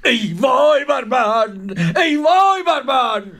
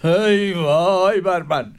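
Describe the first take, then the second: First: Wailing lament. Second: Slow, drawn-out ای وای بر من; sorrowful lament. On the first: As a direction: cry out ای وای بر من in despair. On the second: Caliph grieving on his throne, slow lament. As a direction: sigh out ای وای بر من slowly. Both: Acted. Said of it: "با افسوس گفت".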